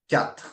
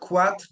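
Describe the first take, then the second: First: It begins with a plain k sound. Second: It begins with a kw sound. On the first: The speaker calls it right. "it's k" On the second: The speaker calls it wrong. "It's not a qu sound"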